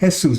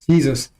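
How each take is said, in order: First: The name starts without a J sound. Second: The name starts with a J sound. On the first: The speaker calls it right. "Somebody named J E S U S, they call him Jesus" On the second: The speaker calls it wrong. "They don't call him Jesus, Jesus, because they don't pronounce it J E"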